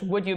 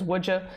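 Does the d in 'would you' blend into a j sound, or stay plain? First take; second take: plain; j sound. First: The d and y are said separately. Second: The d and y merge into a j sound.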